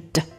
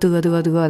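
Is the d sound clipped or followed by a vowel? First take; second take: clipped; vowel. First: The d sound is clipped with no vowel. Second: The d sound is followed by a vowel. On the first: The speaker calls it right. "它是d" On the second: The speaker calls it wrong. "不能得得得的哈"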